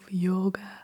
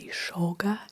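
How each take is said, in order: First: The word begins with a 'y' sound. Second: The word begins with an 'sh' sound. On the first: "instead of" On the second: "in Argentina, people say it as sh"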